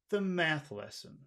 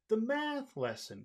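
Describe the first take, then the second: First: It sounds serious, without the friendly pitch sweep. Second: It sounds friendly, with pitch sweeping high to low. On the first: "if you say serious, the second one" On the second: "if you say number one ... High to low"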